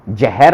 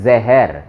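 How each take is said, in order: First: The word begins with a j sound. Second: The word begins with a z sound. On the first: The speaker calls it wrong. "जहर नहीं बोलना है" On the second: The speaker calls it right. "उसको बोलना है जहर, जहर बोलते हैं ना उर्दू के हिसाब से, वो डॉट लगा हुआ है नीचे"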